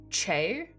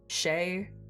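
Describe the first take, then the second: First: The name begins with a hard ch sound. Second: The name begins with a soft sh sound.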